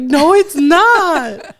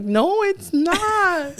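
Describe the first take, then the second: First: Wailing high and drawn out in mock heartbreak; mock crying. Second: High drawn-out mock wail; mock crying. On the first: Mom wailing at her son over his girlfriend, mock crying. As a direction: stretch it into a long mock sob. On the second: Mom protesting her son's girlfriend claim, drawn-out mock wail. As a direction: drag the words out in fake heartbreak. Son repeats girl is girlfriend.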